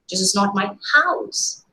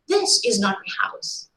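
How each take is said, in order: First: The stress falls on the word house. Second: The stress falls on the word this. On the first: The building is something other than a house. "Probably some other construction" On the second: The speaker's house is a different one. "the hidden meaning is my house is something somewhere else"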